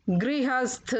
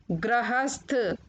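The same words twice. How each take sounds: First: Said in the usual way. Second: गृहस्थ said "grahasth"; mispronounced गृहस्थ. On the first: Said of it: "फिर उनका शुद्ध उच्चारण". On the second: Shown as a demonstration. Teacher showing children the error, गृहस्थ said "grahasth". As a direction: use gra for the गृ of गृहस्थ. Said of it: "अशुद्ध शब्द मैंने रखे हैं".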